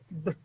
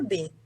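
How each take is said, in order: First: A bare b sound with no vowel. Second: A b sound followed by an e vowel. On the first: This is the sound the letter makes. "o som que ela faz é B" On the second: This is the name of the letter. "a letra B chama B"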